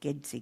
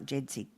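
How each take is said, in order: First: The acronym is pronounced the Indonesian way. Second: The acronym is pronounced the English way. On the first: The speaker calls it right. "because you're using the Indonesian pronunciation" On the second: The speaker calls it wrong. "not JEDSI"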